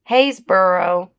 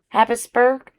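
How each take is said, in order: First: It is said as Hays-borough, ending in borough. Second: It is said as Happis-burg, with a hard g. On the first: The speaker calls it right. "It is burrow" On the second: The speaker calls it wrong. "if I've been saying it the, the wrong way for a long time"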